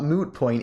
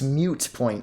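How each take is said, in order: First: The first word has a plain oo vowel. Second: The first word has a y glide before oo. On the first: The speaker calls it wrong. "It's not moot point" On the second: The speaker calls it right. "it's mute point"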